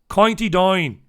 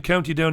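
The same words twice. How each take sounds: First: Put-on loud County Down accent, vowels bent to "coynty dine". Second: Said in the usual way. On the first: Host attempting the accent a comedian does well, exaggerated County Down accent. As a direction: have a go at a broad County Down accent. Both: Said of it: "does a brilliant County Down accent".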